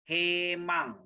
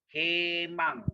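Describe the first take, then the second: The two takes are said the same way.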